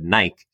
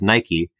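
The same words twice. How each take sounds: First: It is pronounced the way non-Americans say it. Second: It is pronounced the way Americans say it. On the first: "almost everyone else in the room who I was talking to said Nike" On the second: "Every American I've ever met pronounces the shoe brand as Nike"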